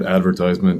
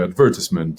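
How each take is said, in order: First: It is said in an American accent. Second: It is said in a British accent.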